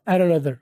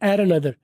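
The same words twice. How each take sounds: No difference in how they are said.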